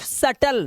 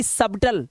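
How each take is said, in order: First: सटल with no b sound; silent b. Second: सबटल with a clear b before t; mistaken b sounded. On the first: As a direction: say सटल, b left out. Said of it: "सिर्फ सटल". (सटल, बिना 'ब' के) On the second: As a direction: slowly show the slip सबटल, b pronounced. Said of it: "सबटल नहीं पढ़ना है". (सबटल, 'ब' की आवाज़ के साथ) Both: Shown as a demonstration.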